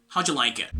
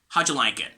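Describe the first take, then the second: First: The words are contracted and run smoothly together. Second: The words are contracted and run smoothly together.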